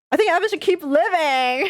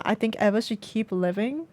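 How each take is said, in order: First: High, loud, half laughing, half crying; laughing-crying plea. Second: Said in the usual way. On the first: Real, not acted. Player choosing that the boy should live, laughing and crying. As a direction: blurt it out through tearful laughter. Player picks choice emotionally.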